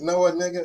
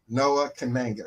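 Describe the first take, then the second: First: The K at the start of the surname is silent. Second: The K at the start of the surname is pronounced. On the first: The speaker calls it wrong. "if you're thinking of the word night, you keep it rolling" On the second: The speaker calls it right. "the correct pronunciation is Noah Kananga"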